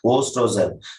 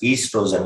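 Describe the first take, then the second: First: The word begins with an O sound. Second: The word begins with an E sound. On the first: The speaker calls it wrong. "We should not say ostrogen" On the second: The speaker calls it right. "we can speak as O is silent"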